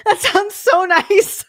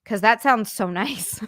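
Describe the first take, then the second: First: High, loud, drawn-out longing; laughing wail. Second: Said in the usual way. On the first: Real, not acted. Streamer envying relief from anxiety, laughing wail. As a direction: wail it wistfully between laughs. Wistful repeat between laughs.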